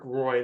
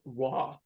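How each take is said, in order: First: The name rhymes with the word boy. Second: The name sounds like the word raw. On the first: This is how Americans say the name. The speaker calls it wrong. "you say Patrick Roy, they might look at you funny" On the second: This is how Canadians say the name. The speaker calls it right. "I think they pronounce it raw"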